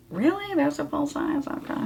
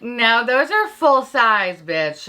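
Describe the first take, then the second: First: Small, high, hushed questioning voice; meek disbelief. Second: Higher, drawn-out imagined retort; mock correction. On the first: Acted. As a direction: shrink back, softly and high, doubting it. Her acted meek reply to correction. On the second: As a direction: play a viewer slowly setting her straight. Imagined viewer correcting her.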